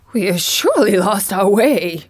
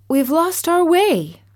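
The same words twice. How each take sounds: First: Mildly voiced Scarecrow, complaining; a touch of grumble on surely; grumbling Scarecrow. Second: Put-on high lost little girl; high young girl. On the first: Scarecrow grumbling to Dorothy, mildly voiced. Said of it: "The Scarecrow began to grumble". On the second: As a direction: say it high and worried. Dorothy pleads. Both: A narrator's reading.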